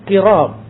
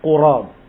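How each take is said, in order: First: The vowel after the q is i. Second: The vowel after the q is u. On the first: "dibacanya dengan kasrah" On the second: "Kalimat qurab didommahkan di huruf qaf"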